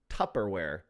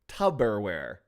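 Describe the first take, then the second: First: The middle consonant is a P sound. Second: The middle consonant is a B sound. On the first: The speaker calls it right. "it is actually Tupperware with a P" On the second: The speaker calls it wrong. "with B's"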